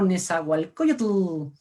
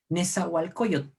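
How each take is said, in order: First: The final tl is released with a clear vowel. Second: The final tl fades out voicelessly between the teeth. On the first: The speaker calls it wrong. "siempre marcamos tú" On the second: The speaker calls it right. "tiene un sonido más sordo"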